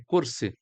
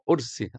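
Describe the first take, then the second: First: The word begins with a k sound. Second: The word begins with no consonant. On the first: This is the common Arabic form. "a cadeira é kursi" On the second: This is how Lebanese and other speakers say it. "no Líbano e em outros países falam ursi, até cortam a letra"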